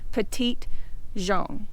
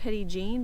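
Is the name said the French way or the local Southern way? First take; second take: French; Southern. First: The name is said with French pronunciation. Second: The name is said with local Southern pronunciation. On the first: This is the original pronunciation. "it should be Petite Jean is how it should be pronounced" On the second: This is how locals say it. "we're in the South, and everybody calls it Petit Jean"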